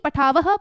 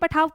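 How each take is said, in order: First: The word ends with an audible breathy h. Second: The word ends without any h sound. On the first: The speaker calls it right. "ऐसे बोलते हैं ना" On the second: The speaker calls it wrong. "ये गलत हो जाता है"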